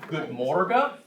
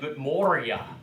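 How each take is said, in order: First: The second word has a hard G sound. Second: The second word has a Y sound instead. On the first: This is how southern dialect speakers say it. "they'll take a hard G" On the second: This is how northern dialect speakers say it. "they pronounce it like a Y"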